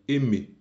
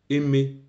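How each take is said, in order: No difference in how they are said.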